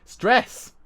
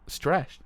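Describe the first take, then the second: First: "Stress" high and loud, with a crisp final s; forced correct pronunciation. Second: "Stress" slipping into "stresh"; mispronounced stress. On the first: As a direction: force out "Stress" ending in s, not sh. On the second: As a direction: say "Stress" with a slurred sh at the end. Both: Real, not acted. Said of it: "Can't say the word stress".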